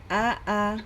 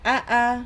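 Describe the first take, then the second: First: The sound is said weakly and softly. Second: The sound is said strongly and held back. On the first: The speaker calls it wrong. "Jangan A A. Nah, itu lemah" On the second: The speaker calls it right. "Tapi uh, dia kuat"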